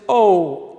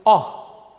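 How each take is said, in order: First: O said as a long "oh" sound; O as in "open", a gliding "oh"; long rounded O, like the letter name; open-syllable O. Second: O said as a short open "ah" sound; O as in "hop", short "ah"; short "ah" O, as in a closed syllable. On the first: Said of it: "if we pronounce it O in open". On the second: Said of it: "now we pronounce it O". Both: Shown as a demonstration.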